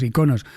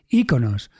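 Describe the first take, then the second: First: The stress falls on a later syllable. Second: The stress falls on the first syllable. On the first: This is how people in Spain say it. "somos los españoles, decimos iconos" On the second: This is how people in Latin America say it. "en toda Hispanoamérica se dice íconos. Se acentúa"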